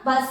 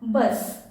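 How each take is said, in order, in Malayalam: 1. ഈ വാക്ക് ചെറിയ 'a' സ്വരാക്ഷരത്തിലാണ് അവസാനിക്കുന്നത്. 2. ഈ വാക്ക് 's' എന്ന വ്യഞ്ജനത്തിലാണ് അവസാനിക്കുന്നത്. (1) "ബസ അല്ല"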